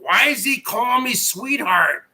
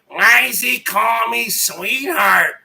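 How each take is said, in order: First: It is said in a plain, ordinary voice. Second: It is said in a dramatic Hollywood-style voice.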